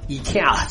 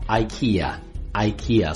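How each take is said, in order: First: It sounds like a Chinese-style transliteration. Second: It has the standard English pronunciation. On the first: The speaker calls it wrong. "读成了IKEA，觉得是中文的译音一样" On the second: The speaker calls it right. "真正的发音呢，应该是IKEA"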